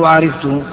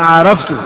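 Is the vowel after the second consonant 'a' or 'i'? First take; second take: i; a. First: The vowel after the second consonant is 'i'. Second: The vowel after the second consonant is 'a'. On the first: The speaker calls it wrong. "ولا تقول عرفته" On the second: The speaker calls it right. "علمت زيدا بمعنى عرفته"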